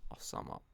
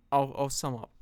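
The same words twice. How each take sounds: First: Soft breathy whisper to self; whispered aside. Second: Said in the usual way. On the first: Real, not acted. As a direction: drop to a whisper. Repeats line then whispers it.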